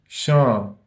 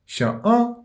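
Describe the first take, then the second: First: The article is linked into the noun's nasal vowel. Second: The article is said as a separate sound. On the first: The speaker calls it right. "mais nous dit" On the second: The speaker calls it wrong. "nous pas dire"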